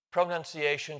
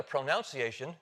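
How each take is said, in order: First: First "pronunciation" with "nun" inside; NUN variant. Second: Second "pronunciation" with "noun" inside; NOUN variant. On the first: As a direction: say "pronunciation" as pro-NUN-ciation. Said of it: "you can switch from one". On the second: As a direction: say "pronunciation" as pro-NOUN-ciation. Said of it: "to another pronunciation". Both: Shown as a demonstration.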